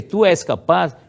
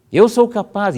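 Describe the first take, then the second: First: Put-on Tu és capaz as the old wording; Tu és capaz said as the parent's phrase; second-person version. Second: Raised, emphatic affirmation; first-person affirmation. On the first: Teacher contrasting the parent's wording, raised. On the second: Teacher showing the first-person version, raised and firm. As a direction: Eu sou capaz said high and firm. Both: Shown as a demonstration. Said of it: "em vez de ser".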